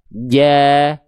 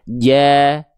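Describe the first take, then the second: The two takes are said the same way.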